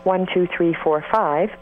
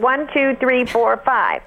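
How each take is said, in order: First: The voice is relaxed, without pressed vocal folds. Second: The voice is pressed and tight at higher pitch. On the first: "I'm not pressing my vocal folds right now" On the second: "or at a higher pitch"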